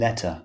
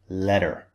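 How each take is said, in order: First: The middle T is clearly pronounced. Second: The middle T sounds like a D. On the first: "In British English, the T is clearly pronounced" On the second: "In American English, this would be letter"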